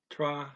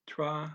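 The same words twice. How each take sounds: The two takes are said the same way.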